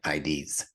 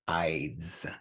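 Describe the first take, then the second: First: The word is said as two syllables. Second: The word is said as one syllable. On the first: The speaker calls it wrong. "not I Ds" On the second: The speaker calls it right. "This word is actually pronounced Ides"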